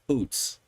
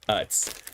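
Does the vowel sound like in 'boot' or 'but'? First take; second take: boot; but. First: The vowel is a long oo sound. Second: The vowel is a short uh sound. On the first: The speaker calls it wrong. "I thought it was Oots personally" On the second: The speaker calls it right. "literally phonetically Utz"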